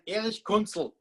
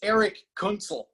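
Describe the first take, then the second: First: It is said in an Austrian accent. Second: It is said in an American accent.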